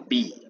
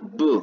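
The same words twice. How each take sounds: First: It is said as the letter name 'bee'. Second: It is said as a bare b sound. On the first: This is the letter's name in the alphabet. "ya en una palabra no suena B" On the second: This is the sound the letter has in a word. "suena B. Pasa a ser un fonema"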